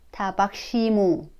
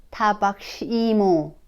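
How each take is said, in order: Both takes have the same delivery.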